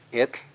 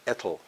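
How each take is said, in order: First: Et ending in hissed voiceless tl; correct TL release. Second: Etl as ET-ul, voiced ending; deliberate mispronunciation. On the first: Teacher contrasting bean with the wrong way, correct TL release. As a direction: let air out at tongue sides to finish Et. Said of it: "Can you hear the difference?". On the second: Teacher showing bean said wrongly, deliberate mispronunciation. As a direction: add a vowel before the L in etl. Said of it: "Let's mispronounce". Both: Shown as a demonstration.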